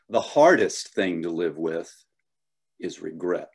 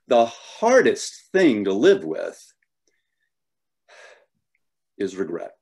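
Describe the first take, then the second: First: It is said plainly, with little emotion. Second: It is said theatrically, with a small pause.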